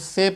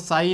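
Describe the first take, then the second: First: The vowel sounds like 'ay'. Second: The vowel sounds like 'eye'. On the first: The speaker calls it right. "तो से पढ़ते हैं" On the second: The speaker calls it wrong. "इसको साई नहीं पढ़ते हैं"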